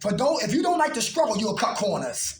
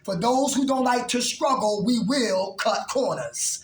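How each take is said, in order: First: It is said at normal speed. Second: It is said slowly.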